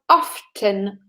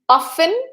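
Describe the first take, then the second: First: The word is said with an audible T sound. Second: The word is said without a T sound. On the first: "with the T, that you can hear it" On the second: "with a silent T"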